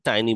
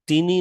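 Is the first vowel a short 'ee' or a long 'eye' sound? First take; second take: eye; short ee. First: The first vowel is an 'eye' diphthong. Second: The first vowel is a short 'ee' sound. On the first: The speaker calls it right. "আমরা টাইনি বলি" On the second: The speaker calls it wrong. "টিনি না বলে"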